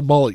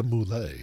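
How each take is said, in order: First: Said in the usual way. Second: Mullet said moo-LAY, French-style, stress on the end; fancy French-style pronunciation. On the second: Shown as a demonstration. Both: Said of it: "You gotta be fancy about it".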